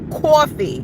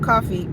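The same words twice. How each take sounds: First: The first vowel carries a drawn-out w-like glide. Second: The first vowel is plain, with no added glide. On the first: "I'm putting all the W's in my words" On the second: "Not coffee"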